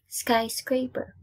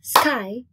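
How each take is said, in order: First: Said in the usual way. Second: SKYSCRAPER split into sky, scra, per, louder; syllable by syllable. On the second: Shown as a demonstration. Teacher counting three syllables for pupils, syllable by syllable. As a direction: punch each beat of "Skyscraper" with gaps between. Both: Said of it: "Another three syllables".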